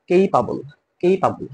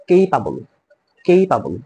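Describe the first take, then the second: Both takes have the same delivery.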